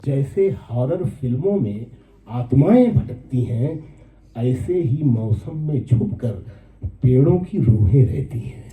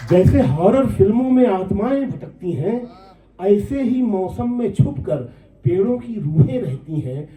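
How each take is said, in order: First: Poem recitation. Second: High, carrying mushaira delivery of the verse; poem recitation. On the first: First take of verse. (धीमे, नीचे सुर में नज़्म पाठ) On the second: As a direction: lift the lines high, coming down at the close. Repeats verse, pitched up. (ऊँचे सुर में नज़्म पाठ) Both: Acted.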